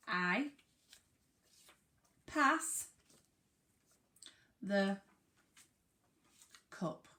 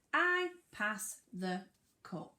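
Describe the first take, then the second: First: Slow, each word set apart with pauses. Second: Said in the usual way. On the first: Shown as a demonstration. Teacher reading a sentence to the class, word by word. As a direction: read it one word at a time. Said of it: "I've got a sentence and it says". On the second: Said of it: "Let's read it again".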